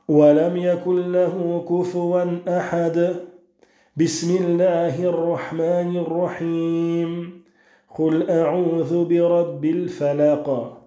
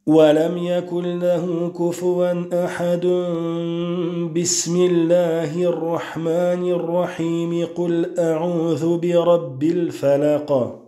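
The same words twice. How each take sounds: First: A pause follows each of the three parts. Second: All three parts run together without any pause. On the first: "on va s'arrêter à la fin de la surah et on va lire Al-Basmalah" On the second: "on a fait la liaison entre la fin de Surah Al-Ikhlas, Al-Basmalah, et le début de Surah Al-Falaq"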